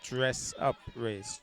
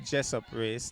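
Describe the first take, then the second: First: The first word starts with a clear 'dr' sound. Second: The first word starts with a 'j' sound. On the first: The speaker calls it right. "the correct pronunciation would be dress up race" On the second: The speaker calls it wrong. "If you say Jessup race"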